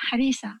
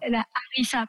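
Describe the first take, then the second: First: Harissa dit à la tunisienne, r roulé presque en l; prononciation tunisienne. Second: Harissa avec un r français du fond de la gorge; prononciation française. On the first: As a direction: dire harissa comme à Tunis, r léger. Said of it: "J'arrive plus à dire les mots tunisiens avec l'accent français". (harissa à la tunisienne, sans r français) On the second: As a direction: se reprendre et dire harissa à la française. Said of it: "pardon, on dit en français". (la harissa, r français bien appuyé) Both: Shown as a demonstration.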